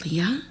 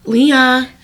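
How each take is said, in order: First: Soft, unsure Leah?, much softer; Leah? asked under the breath, half to herself; quiet puzzled call. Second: Leah? called out again through a laugh. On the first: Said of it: "Okay, Leah, let's go". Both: Retold or imitated.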